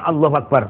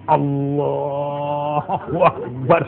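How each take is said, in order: First: It is said quickly and hurriedly. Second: It is said slowly and with exaggerated devotion. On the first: No one is watching. "Kok cepat sekali?" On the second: The prayer is put on for someone watching. "Karena dekat dengan pacarnya. Waduh, cek husuk-husuknya"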